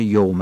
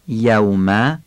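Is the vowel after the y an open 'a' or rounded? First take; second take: rounded; open. First: The vowel after the y is rounded. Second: The vowel after the y is an open 'a'. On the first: The speaker calls it wrong. "یوم نشه، فتح یا خوب بگیم" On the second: The speaker calls it right. "دقت کنیم یوم درست بیان بشه"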